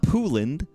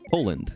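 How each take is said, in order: First: The first syllable sounds like pool. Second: The first syllable rhymes with pole. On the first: The speaker calls it wrong. "Not Pooland" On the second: The speaker calls it right. "it's pole, like a pole, like a street pole"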